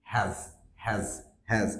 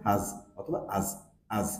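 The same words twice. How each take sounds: First: "হ্যাজ" with a full open æ; strong form. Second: "হাজ" reduced to /həz/, "আজ" with the h dropped; weak form. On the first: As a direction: say each "হ্যাজ" fully. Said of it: "এর strong sound হচ্ছে". ("হ্যাজ" অ্যা-ধ্বনিতে, strong সাউন্ডে) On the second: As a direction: shorten "হাজ" to uh, then lose the h. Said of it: "উইক sound হচ্ছে". ("হাজ", "আজ" ছোট উইক সাউন্ডে) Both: Shown as a demonstration.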